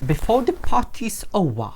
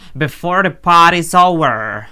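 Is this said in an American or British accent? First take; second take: British; American. First: It is spoken in a British English accent. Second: It is spoken in an American English accent. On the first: "мабуть, британський акцент" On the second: "Чи вони кажуть"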